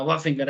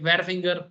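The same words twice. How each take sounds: First: वाह with the R silent, just 'waa'; वाह फिंगर said 'waa-finger', dropping the WHAR letters; वाह spoken with the H and R left out; correct pronunciation. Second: वेयर said as written, with a clear W and R sound; वेयर फिंगर read out letter by letter, the way it is spelt; वेयर pronounced 'wear' with the R sounded; spelling pronunciation. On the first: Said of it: "आर silent रहता है". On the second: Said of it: "ऐसे इसको वेयर फिंगर बोलते कि". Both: Shown as a demonstration.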